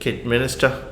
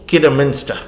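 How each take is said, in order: First: The name sounds like 'Kid' plus 'Minister'. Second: The name sounds like one word, 'Kidderminster'.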